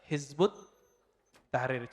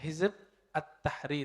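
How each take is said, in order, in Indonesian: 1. Katanya disambung dengan bunyi 'ut'. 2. Artikelnya dibaca terpisah sebagai 'at'. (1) "kalau dibaca Hizbut Tahrir, cara bacanya begitu" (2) "transliterasinya Hizb At-Tahrir"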